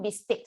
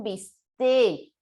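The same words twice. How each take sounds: First: "bistec" with its final K kept; foreign form, final K. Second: "bistec" drawn out as bis-TÉ; castellanized, no final K. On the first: Teacher allowing the foreign word, "bistec" with final K. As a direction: close "bistec" on a consonant. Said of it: "como extranjerismo". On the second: Teacher modelling the castellanized request, "bistec" without its final K. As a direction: end "bistec" on a long stressed vowel. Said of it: "y lo castellanizas". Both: Shown as a demonstration.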